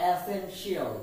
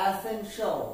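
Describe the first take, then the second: First: Essential ending in shi-al; rejected shi-al ending on essential; wrong pronunciation. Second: Essential as e-sen-shol; e-sen-sho for essential; correct pronunciation. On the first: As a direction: say essential as e-sen-shi-al, the mistake. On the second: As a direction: say essential with a one-beat shol ending. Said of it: "we have to pronounce it". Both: Shown as a demonstration.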